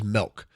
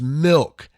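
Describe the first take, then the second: First: The vowel sounds like 'eh', as in 'melk'. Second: The vowel sounds like 'ih', as in 'milk'. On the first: The speaker calls it wrong. "She says milk, M E L" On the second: The speaker calls it right. "It's milk. M I L K"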